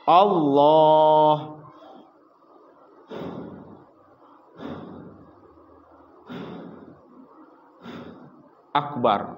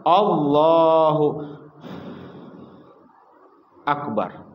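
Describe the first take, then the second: First: There is a long pause between the words. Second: There is a short pause between the words.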